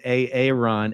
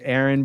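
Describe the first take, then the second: First: The name is pronounced in a distorted way. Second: The name is pronounced in the usual way. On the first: The speaker calls it wrong. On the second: The speaker calls it right.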